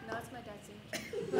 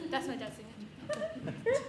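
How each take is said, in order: First: Softer, guilty mumble; nervous quiet denial. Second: Slow, laughing through the lie; laughing denial. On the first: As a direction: say the lie meekly. Repeats lie to teacher. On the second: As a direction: crack up mid-lie. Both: Retold or imitated.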